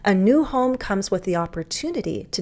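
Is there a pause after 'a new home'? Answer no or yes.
no. It flows without a pause after the subject. "I could say a new home comes with the opportunity to declutter"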